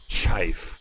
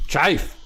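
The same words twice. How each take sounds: First: "chife" said with a long i, rhyming with life; "chife" for chief, low and falling; "chife" with a long i instead of the ee of chief; mispronounced chief. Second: "Chife" with a long i, rising; "Chife" said like a question, long i; "Chife" rhyming with life, lifted at the end; mispronounced chief again. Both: Real, not acted. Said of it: "You could say chief instead of chife".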